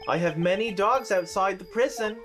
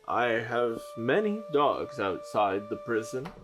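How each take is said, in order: First: It is said in the narrator's own voice. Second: It is said in a put-on voice for Dolgan.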